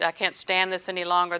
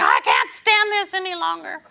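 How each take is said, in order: First: Said in the usual way. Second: High, loud despairing cry; exasperated wail. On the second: Retold or imitated. Believer voicing despair in a high exasperated wail. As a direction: whine it out like someone at the end of their rope. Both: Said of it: "That's the standard thing".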